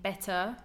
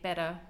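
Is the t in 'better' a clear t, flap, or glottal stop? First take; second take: clear t; flap. First: The t is a clear, fully released t. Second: The t is a soft, d-like flap. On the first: "better with a true T" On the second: "I might say better now"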